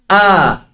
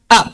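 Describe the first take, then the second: First: The vowel is held a moderate time. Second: The vowel is held very briefly. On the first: "Kalau kita bacanya sedang" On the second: "Kalau kita baca cepat"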